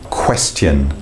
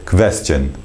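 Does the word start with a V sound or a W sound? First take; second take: W sound; V sound. First: It starts with a rounded-lip W sound. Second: It starts with a teeth-on-lip V sound. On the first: The speaker calls it right. "what happens when we use the W sound? We're bringing the lips together and then releasing them" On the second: The speaker calls it wrong. "sometimes the pronunciation can turn more into a V"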